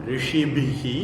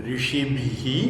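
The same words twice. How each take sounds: The two takes are said the same way.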